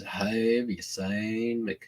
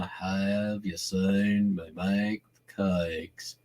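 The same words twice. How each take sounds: First: Slow, dumbed-down North Carolina drawl; slow it right down, North Carolina style; slow North Carolina accent. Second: Slow, softer North Carolina drawl like in mud; droopy, slow North Carolina accent. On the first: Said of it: "North Carolina is". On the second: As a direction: drag the words through mud, North Carolina style. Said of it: "that's a little North Carolina, slower, like in mud". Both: Shown as a demonstration.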